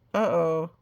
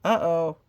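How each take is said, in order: Both takes have the same delivery.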